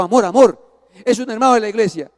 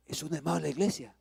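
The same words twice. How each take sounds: First: Loud, insistent wife stopping husband; urgent warning. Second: Soft, quick, quiet explanation; hushed repetition. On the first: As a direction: urge him to stop, loudly. Esposa intenta frenar al marido airado. (advertencia insistente, en voz alta) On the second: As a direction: say it low and quickly. Esposa lo repite ya en calma. (en voz baja y rápida) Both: Retold or imitated.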